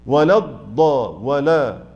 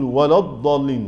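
First: ولا slow with a light lam; correct light lam. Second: ولا الضالين with the lam of ولا made heavy; mock making ولا heavy before the dad; imitating a heavy lam. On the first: Shown as a demonstration. Teacher modelling the light lam of ولا. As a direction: keep the lam of ولا thin. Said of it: "أجيبها لوحدها برضو". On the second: Teacher imitating the wrong heavy lam of ولا. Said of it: "يقول".

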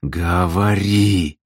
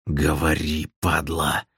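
First: Very slow, stretched growled order; drawn-out menacing command. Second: Low, soft rasping order; quiet, wheezed fury; hoarse threat. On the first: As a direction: growl the word out long. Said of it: "прорычал в красное лицо". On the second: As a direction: rasp it out with menace. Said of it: "просипел Белый". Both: A narrator's reading.

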